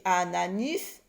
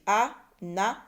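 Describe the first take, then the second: First: ANANIS with an I in the last syllable, rising; wrong vowel. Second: ANANAS in three parts, a-na-nas; syllable by syllable. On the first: Teacher offers a wrong word, ANANIS with a false final vowel. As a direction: test them with a questioning ANANIS. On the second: Teacher corrects the wrong word, ANANAS split into syllables. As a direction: break ANANAS slowly so each A rings out. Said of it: "dans la troisième syllabe". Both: Shown as a demonstration.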